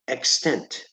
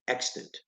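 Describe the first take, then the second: First: The stress is on the second syllable. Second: The stress is on the first syllable. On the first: The speaker calls it wrong. "extent or extant" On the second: The speaker calls it right. "You want to emphasize the first syllable"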